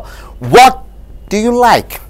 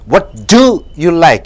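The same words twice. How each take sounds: First: The word "what" is stressed. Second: The word "do" is stressed. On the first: It is a plain request for information. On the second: One person is singled out from many.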